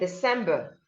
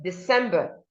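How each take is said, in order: No difference in how they are said.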